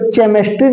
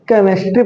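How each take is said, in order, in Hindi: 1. यह शब्द 'ch' की आवाज़ से शुरू होता है। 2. यह शब्द 'k' की आवाज़ से शुरू होता है। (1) "इसको केमिस्ट्री नहीं पढ़ते" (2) "एच साइलेंट हो जाता है"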